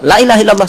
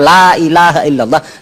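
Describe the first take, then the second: First: A vowel in the phrase is cut short. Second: A vowel in the phrase is held long. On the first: Truly, God is not God. The speaker calls it wrong. "Allah di depan itu pendek" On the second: There is no god but God. The speaker calls it right. "tidak ada Tuhan selain Allah"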